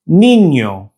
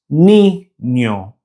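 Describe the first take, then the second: First: Said in the usual way. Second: Niño broken as ni, nyo with a gap; syllable by syllable. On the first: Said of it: "other Spanish words containing the ñ". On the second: Shown as a demonstration. Teacher showing Spanish words with ñ, syllable by syllable. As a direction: say niño in two slow pieces, ñ starting the second.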